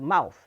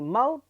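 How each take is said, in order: First: The word ends with a th sound. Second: The word ends with a plain t sound. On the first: "instead of mouth" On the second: "unraveling the mouth"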